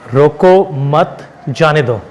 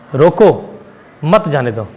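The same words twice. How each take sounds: First: The pause comes after 'mat'. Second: The pause comes after 'roko'.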